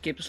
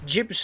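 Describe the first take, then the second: First: It begins with a hard G sound. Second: It begins with a soft J sound. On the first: The speaker calls it wrong. "not gibbs like goblets" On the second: The speaker calls it right. "like giblets"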